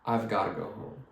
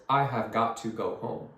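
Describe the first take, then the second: First: "I've gotta" blended, t flapped; casual "I've gotta go home"; natural reduced form. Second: "I have got to" with every word sounded; full form. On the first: Teacher showing how everyone says it. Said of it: "A hundred percent of people would say". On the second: Teacher showing what nobody says. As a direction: stiff unreduced "I have got to go home". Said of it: "Nobody says". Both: Shown as a demonstration.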